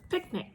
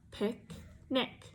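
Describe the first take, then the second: First: "Picnic" blended, pick stronger than nick, pitch high; stress on first syllable. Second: "Pick" and "nick" said as separate syllables with a pause between; syllables apart. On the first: Teacher blending picnic with first-syllable stress. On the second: Teacher splitting picnic into syllables for a child. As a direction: split "Pick, nick" into two chunks before blending. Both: Shown as a demonstration. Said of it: "we say pick a little stronger than we say nick".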